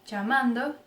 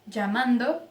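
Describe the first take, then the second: The two takes are said the same way.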